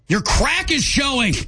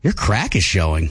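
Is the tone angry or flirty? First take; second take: angry; flirty. First: It is said in an angry tone. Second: It is said in a flirty tone.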